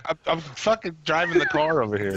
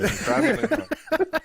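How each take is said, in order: First: Said in the usual way. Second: Pitched up and laughing; laughing high-pitched repeat. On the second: Pretend. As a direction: squeal it through a laugh.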